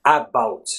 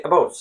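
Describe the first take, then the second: First: "about" with a clear open A at the start; over-pronounce the A in "about"; careful "about", first vowel given full value. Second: "about" opening on a quick unstressed uh; conversational "about", first vowel barely sounded; schwa. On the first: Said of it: "You don't really say about". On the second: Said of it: "You say about". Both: Shown as a demonstration.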